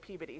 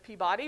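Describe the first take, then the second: First: The name is said the New England way. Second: The name is said the way many people say it. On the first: "Peabody is how the New Englanders will be mad if I don't say" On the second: "sometimes people pronounce it as Peabody"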